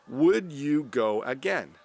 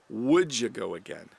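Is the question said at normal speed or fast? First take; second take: normal; fast. First: It is said at normal speed. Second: It is said fast.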